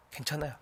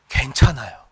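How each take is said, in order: First: Hushed echo, very quiet and low; soft reassurance. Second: Said in the usual way. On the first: Real, not acted. Preacher reassuring the Spirit-filled believer, very softly. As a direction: gently let the reassurance settle.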